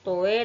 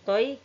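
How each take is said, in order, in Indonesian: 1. Vokalnya adalah satu vokal tunggal. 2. Vokalnya meluncur ke bunyi ee. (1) "bukan dibaca toe" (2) "harus dibaca benar dengan toy karena fathah mati ke huruf ya"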